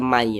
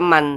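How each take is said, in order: First: The n merges into the following y. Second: The final n is clearly pronounced. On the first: The speaker calls it right. "tapi dibaca mai begitu" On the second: The speaker calls it wrong. "tidak dibaca man"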